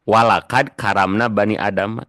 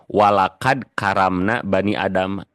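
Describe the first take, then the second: No difference in how they are said.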